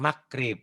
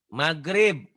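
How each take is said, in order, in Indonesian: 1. Konsonan tengahnya bunyi K tak bersuara. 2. Konsonan tengahnya bunyi mirip G bersuara. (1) "bukan makrib" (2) "pakai G"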